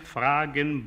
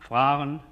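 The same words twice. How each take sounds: First: The g is said as a plain stop. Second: The g is a soft, voiced fricative.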